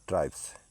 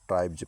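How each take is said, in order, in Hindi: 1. इस शब्द का अंत s की आवाज़ से होता है। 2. इस शब्द का अंत z की आवाज़ से होता है। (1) "ना कि ट्राइब्स" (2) "यहाँ ट्राइब्स पढ़ेंगे"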